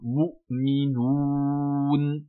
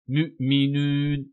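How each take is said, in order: First: The long vowel sounds like a back 'oo'. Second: The long vowel sounds like a fronted 'u'. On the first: The speaker calls it right. "c'est un son ou" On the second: The speaker calls it wrong. "la dhamma prononcée avec un u comme euh"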